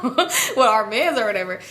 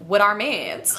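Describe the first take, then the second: First: Slow, drawn-out mock of her friend's line; mocking repeat. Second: Said in the usual way. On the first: The teller mocks her friend's answer, slow and teasing. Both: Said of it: "She was like".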